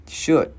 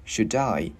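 First: Said in the usual way. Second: SHOULD I as one unit, "shu-dai"; linked D. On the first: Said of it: "Chữ này chữ E". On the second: Shown as a demonstration. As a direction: carry the D of "Should" into "I". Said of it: "cái chữ D này mình sẽ luyến qua". (nối âm D của "Should" sang "I")

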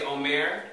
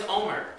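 First: "omer" as o-MAIR; "omer" with a long, stressed -mer; omer stressed on the second syllable. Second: "omer" as OH-mer; "omer" with a short, unstressed -mer; omer stressed on the first syllable. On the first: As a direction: put the weight on the last syllable of "omer". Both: Shown as a demonstration. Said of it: "that's not the same as omer".

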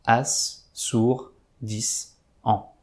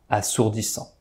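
First: "As, sourd, dix, an" as isolated beats with clear pauses; "As, sourd, dix, an" slowly counted out as separate pieces; syllable by syllable. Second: Said in the usual way. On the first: Shown as a demonstration. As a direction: give "As, sourd, dix, an" one at a time, letting each stand alone. Syllables of the answer listed separately.

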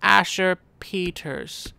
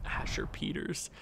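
First: Slow, savoring the name Asher Peters like a fond parent; a light hint of a doting dad; mock proud parent. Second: Whispered. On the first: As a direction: say "Asher Peters" slowly, as if naming your son. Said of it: "you look at your son and go". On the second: Real, not acted. Repeating the funny name.

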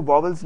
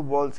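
First: वॉवल्स with a second v, "vaa-vals"; वॉवल्स with an extra v in the middle; mistaken pronunciation. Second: वॉल्स run together as one syllable, "vawls"; वॉल्स as a single smooth beat; corrected pronunciation. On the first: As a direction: say वॉवल्स in two parts, "vaw-vuls". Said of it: "इसको वॉवल्स नहीं कहते". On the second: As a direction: say वॉल्स with no middle v. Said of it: "इसको वॉल्स कहते हैं". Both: Shown as a demonstration.

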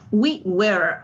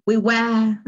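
First: American "We were" with the R sounded; American accent. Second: British "We were", R dropped into a schwa; non-rhotic British "were"; British accent. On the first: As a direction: say "We were" the American way, finishing on a clear R. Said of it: "Aquí sí se pronuncia la R". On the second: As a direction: say "We were" like a Brit, no R. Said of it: "Un británico lo diría". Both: Shown as a demonstration.

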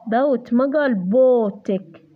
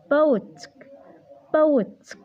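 First: بوتك with a full vowel, said slowly as the mistake; slow demo of بوتك said wrong; wrong pronunciation shown. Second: بوتك with a weak schwa first vowel; short, light first syllable in بوتك; right pronunciation. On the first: Tutor showing a student the wrong way, slowly. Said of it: "ما لفظناها بوتك احنا". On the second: Tutor modelling the correct reading for a student. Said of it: "لفظناها كشوا". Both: Shown as a demonstration.

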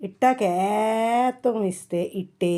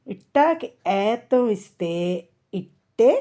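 First: "ఏతం" and "ఇట్టే" with ee stretched very long. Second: "ఇట్టే" ending on a short e, rising; slow phrase, then "ఇట్టే" with a brief final e. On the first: Teacher contrasting the long sign, drawn-out ee in "ఏతం" and "ఇట్టే". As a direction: slowly hold the ee in "ఏతం" and at the end of "ఇట్టే". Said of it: "ఏతం ఇస్తే". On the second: Teacher showing the vowel sign, short final e in "ఇట్టే". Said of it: "ఇట్టాకి ఏతం ఇస్తే". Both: Shown as a demonstration.

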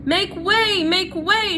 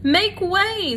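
First: High, loud shout; Furlough shouting. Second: High, loud herald call for the crowd; Furlough calling. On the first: Furlough clears a path through the mice, high loud shout. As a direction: bellow to clear the crowd. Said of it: "shouted Furlough". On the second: Furlough pushes through the mice, loud high call. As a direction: Furlough clearing a path, voice pitched up high. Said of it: "said Furlough". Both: A narrator's reading.

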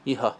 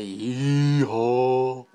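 First: Said in the usual way. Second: Drawn-out, louder cowboy-style holler; exaggerated yee-haw. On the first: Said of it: "How would you say". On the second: Shown as a demonstration. Vlogger showing how it wouldn't be said, exaggerated yee-haw. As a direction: stretch both syllables way out. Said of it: "You wouldn't say".

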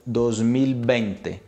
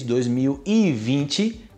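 First: Slow, with "vinte" said as "bente" and a clear l in "mil"; Spanish pronunciation. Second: Said in the usual way. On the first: Shown as a demonstration. Teacher shows students the Spanish number, slow Spanish "bente". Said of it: "Em espanhol". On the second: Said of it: "Você fala dois mil e vinte em português".

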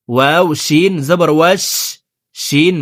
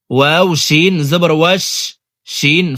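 Both takes have the same delivery.

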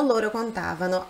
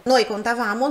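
First: "contavano" stressed on the TA; "contavano" with the weight on its second syllable. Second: "contavamo" stressed on the VA; "contavamo" with the weight on its third syllable. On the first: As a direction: demonstrate conTAvano. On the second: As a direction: demonstrate contaVAmo. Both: Shown as a demonstration. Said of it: "esse deslocamento da sílaba tônica".

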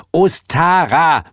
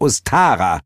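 First: High, loud, stretched OSTARA; irritated, drawn-out name in a high voice; annoyed repetition. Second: High, portentous character voice; Heel's first naming. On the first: A narrator's reading. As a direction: repeat OSTARA slowly, exasperated. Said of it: "wiederholte Heel genervt". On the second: Acted.

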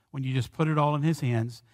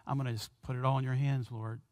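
First: Said in the usual way. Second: Soft, quick murmur of surrender; hushed prayer. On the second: Acted. A believer surrendering everything to the Lord, soft and quick. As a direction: drop to a fast private whisper to the Lord.

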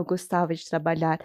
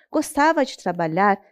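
First: Softer, wry correction of gostava; ironic aside. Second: Said in the usual way. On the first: Shown as a demonstration. Narrator correcting herself about the hardworking brother, wry and soft. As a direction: take back gostava with a quieter ironic tone. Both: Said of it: "não que ele gostava".

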